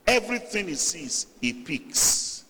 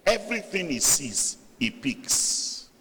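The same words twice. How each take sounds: The two takes are said the same way.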